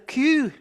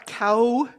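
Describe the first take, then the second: First: The vowel sounds like 'oo', Scottish pronunciation. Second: The vowel sounds like 'ow', standard pronunciation. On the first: "he's a coo. He's a Highland coo" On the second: "he's not a cow"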